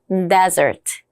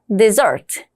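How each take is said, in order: First: The stress is on the first syllable. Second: The stress is on the second syllable. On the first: It means a dry sandy region. "사막일 때는" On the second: It means to abandon. "버리다일 때는 ... 중간으로 빠지는 거 기억해 주시고요"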